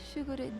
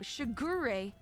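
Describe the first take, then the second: First: It is said in a plain, normal voice. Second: It is said like an anime dub.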